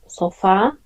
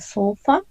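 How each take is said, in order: First: It is said with Spanish pronunciation and stress. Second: It is said with English pronunciation and stress. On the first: "that in Spanish is sofá, ... just change the pronunciation and the stress" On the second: "when sofa"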